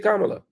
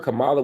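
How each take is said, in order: First: The stress is on the first syllable. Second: The stress is on the second syllable. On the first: The speaker calls it right. "A whole lot of words got an accent on the first first syllable" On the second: The speaker calls it wrong. "y'all are being intentional in your mispronunciation"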